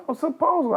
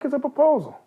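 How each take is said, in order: First: High, puzzled echo of the phrase; mocking echo. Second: High, baffled repeat of the word; confused echo of a word he has never heard; puzzled echo. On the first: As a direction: repeat it back, bemused. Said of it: "and they". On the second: Retold or imitated. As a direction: say it like a strange new word. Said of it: "I'm like".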